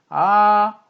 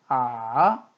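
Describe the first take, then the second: First: The pitch stays high, flat and long. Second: The pitch dips low, then rises again. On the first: "솔의 음높이로 평평하고 길게 이어지는 소리를 일성" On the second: "내려갔다 올라가는 소리"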